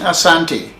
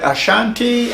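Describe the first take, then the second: First: The middle consonant is a plain 's' sound. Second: The middle consonant is a 'sh' sound. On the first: This is what the people call themselves. "Asante is what we really call ourselves" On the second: This is the form the colonial English gave the name. "the English made it S H"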